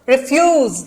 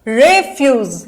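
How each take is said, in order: First: The stress is on the second syllable. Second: The stress is on the first syllable. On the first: It is used as a verb. "ये हो गया verb" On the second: It is used as a noun. "ये हो गया noun"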